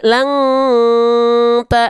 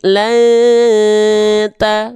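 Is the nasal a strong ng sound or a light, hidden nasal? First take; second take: strong ng; light nasal. First: The nasal is a full, strong ng sound. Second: The nasal is light and hidden, barely heard. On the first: The speaker calls it wrong. "enggak dibaca la lang ta, enggak" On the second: The speaker calls it right. "tapi la ta"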